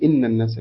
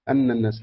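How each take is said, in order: First: The first word begins with an 'i' vowel. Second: The first word begins with an 'a' vowel. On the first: This is the other readers' version of the verse. "والباقون" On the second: This is one school's reading of the verse. "يقولون أن الناس هكذا مع فتح"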